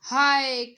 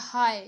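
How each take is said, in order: First: Sudden loud "हाय" of shock; shocked exclamation. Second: Said in the usual way. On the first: Shown as a demonstration. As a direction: blurt out "हाय" loudly, as if something just happened. (अचानक ज़ोर से चौंककर "हाय" कहना) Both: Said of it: "मुंह से एकदम निकलता है हाय".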